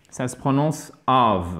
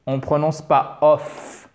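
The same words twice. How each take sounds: First: "of" with a short English vowel; "of" said the correct English way; right of. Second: "of" with a full French o, as spelled; "of" said the wrong way, like French. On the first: Teacher showing French learners the right "of": short English vowel. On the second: Teacher showing French learners the mistake on "of": wrong vowel. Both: Shown as a demonstration.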